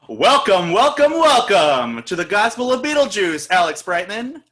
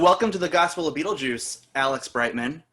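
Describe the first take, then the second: First: It is said loudly, like a monster truck announcer. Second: It is said in a plain, ordinary way.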